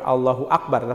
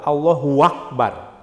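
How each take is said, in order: First: Allahu runs into Akbar with no added sound. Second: A w sound is inserted before Akbar. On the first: "bukan Allahu Akbar" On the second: "tapi Allahu Akbar ... ada waw itu"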